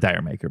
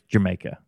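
First: It sounds like the two words 'dire maker'. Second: It sounds like the single word 'Jamaica'. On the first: The speaker calls it wrong. "everyone says Dire Maker" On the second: The speaker calls it right. "it's apparently it's called Jamaica"

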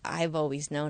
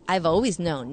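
First: It is said in a soft, sincere tone. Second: It is said in a taunting, gloating tone. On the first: The speaker is quietly admitting shared feelings. The speaker calls it right. "It's that "I've always known, I've always felt it too."" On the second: The speaker is gloating over the other person. The speaker calls it wrong. "It's not "I've always known, nanny, nanny, boo, boo.""

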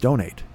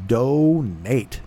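First: The word is said in a plain ordinary voice. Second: The word is said in an exaggerated put-on voice. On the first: "Just says donate" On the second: "But I say it as donate"

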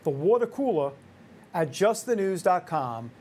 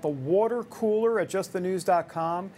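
First: It is said in a New York accent. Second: It is said in his usual neutral accent.

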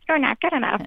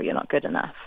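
First: It is said in a squeaky Mickey Mouse voice. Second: It is said in her normal voice.

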